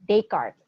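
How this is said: The name is pronounced in a French style. The speaker calls it right. "he's French, so Descartes is the proper pronunciation"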